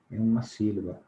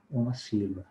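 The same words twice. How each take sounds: The two takes are said the same way.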